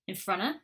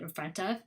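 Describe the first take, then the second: First: The 'of' shrinks to a schwa joined on. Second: The 'of' is said fully as a separate word. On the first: "combined ones ... that's a schwa sound" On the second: "instead of"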